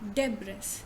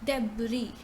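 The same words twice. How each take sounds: First: The second syllable does not sound like brie. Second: The second syllable sounds like brie. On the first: The speaker calls it wrong. "how do we pronounce this word generally?" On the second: The speaker calls it right. "But in fact, it is debris. So you say de first, de, and then you say brie"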